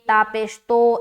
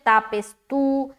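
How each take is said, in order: First: The final vowel is an Urdu-style 'o' sound. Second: The final vowel is a pure long 'oo' sound. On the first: The speaker calls it wrong. "मजहूल पढ़ा है" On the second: The speaker calls it right. "तो इस तरीके से दुरुस्त करें"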